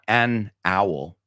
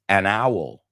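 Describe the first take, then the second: First: The two words are said separately, unlinked. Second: The n runs straight into the next word. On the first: The speaker calls it wrong. "Not, it's not" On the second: The speaker calls it right. "la N se una, se une con el vocal"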